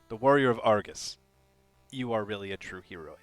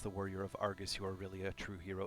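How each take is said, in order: First: There is a clear pause after Argus. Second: It runs on with no pause after Argus. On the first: "You are you got to pause right there" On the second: "Rory has me read it like that because there's no punctuation"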